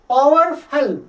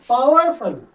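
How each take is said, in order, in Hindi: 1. पहला स्वर 'ow' diphthong की तरह फिसलता है। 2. पहला स्वर 'ow' डिप्थॉन्ग की तरह फिसलता है।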